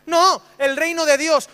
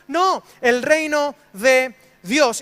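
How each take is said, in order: First: "No" stressed, slow and firm; firm correction. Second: "No" hit hard, every word drawn out very slowly; slower, weightier correction. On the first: Preacher correcting the congregation, firm and slow. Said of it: "¿Cuál reino?". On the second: Preacher insisting on the answer, very slow and emphatic. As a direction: lay down "No, el reino de Dios" word by word, very slow. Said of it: "¿El de los cristianos?". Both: Shown as a demonstration.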